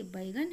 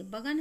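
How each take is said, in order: First: बैगन whispered as "baingan" with the ai sound; correct reading. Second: बगन read bare as "bagan" without the ai sign; wrong reading. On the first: Teacher to children, whispering the correct बैगन as "baingan". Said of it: "तो ऐसे लिखते हैं बैगन". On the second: Teacher showing children the misspelling बगन read as "bagan". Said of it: "तो ऐसे नहीं होगा". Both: Shown as a demonstration.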